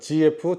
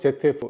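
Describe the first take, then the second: First: The letter Z is read as 'zee'. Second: The letter Z is read as 'zed'. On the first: "G라고 읽는 사람도 있죠" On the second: "제트에프 이렇게 읽는데"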